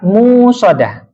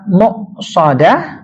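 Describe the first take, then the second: First: No glottal stop is heard after the first syllable. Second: A glottal stop is heard after the first syllable. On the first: "tidak ada uh, apa namanya uh, hamzah ... lurus aja begitu ya" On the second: "Dapat dibaca muqsadah"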